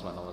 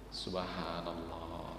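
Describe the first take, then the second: First: It is rattled off quickly without feeling. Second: It is said slowly, deeply and with feeling.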